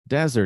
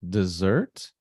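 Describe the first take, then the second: First: The stress is on the first syllable. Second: The stress is on the second syllable. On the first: A dry, sandy place. "the stress is on the first syllable" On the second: A sweet food eaten after a meal. "the stressed syllable is the second syllable"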